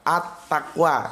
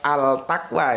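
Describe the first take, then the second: First: The article blends into the following t sound. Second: The article keeps a clear l sound. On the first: The speaker calls it right. "itu At-Takwa ya" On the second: The speaker calls it wrong. "Jadi bukan Al-Takwa ya"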